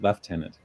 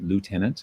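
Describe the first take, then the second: First: It is said with a British pronunciation. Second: It is said with an American pronunciation. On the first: "we pronounce it" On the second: "all the Americans watching are going to want to pronounce it"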